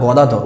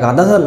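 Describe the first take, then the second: First: The first vowel is a short rounded 'o'. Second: The first vowel is a long open 'aa'. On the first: The speaker calls it right. "উচ্চারণটা যেন সঠিক হয়" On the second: The speaker calls it wrong. "কথাটা গাদাধর না"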